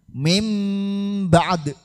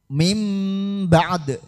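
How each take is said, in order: The two takes are said the same way.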